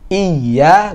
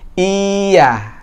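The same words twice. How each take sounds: First: The opening vowel is short, the y stressed. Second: The opening vowel is drawn out long. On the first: The speaker calls it right. "Hamzahnya nggak boleh panjang ya" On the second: The speaker calls it wrong. "bukan iya"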